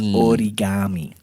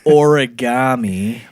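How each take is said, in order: First: It is pronounced in a Japanese-style way. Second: It is pronounced in an English-style way. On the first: The speaker calls it right. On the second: The speaker calls it wrong. "it's not"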